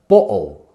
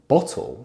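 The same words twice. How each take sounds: First: The T is stopped in the throat. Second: The T is clearly released with a puff. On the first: "we might say" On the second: "instead of"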